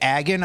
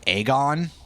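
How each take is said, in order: First: The name begins like the word agony. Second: The name does not begin like agony. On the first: This is how the speaker personally says it. "I keep saying it Agon. ... it resembles Agony" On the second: This is how most other people say it. "most of the time I hear people say Aegon"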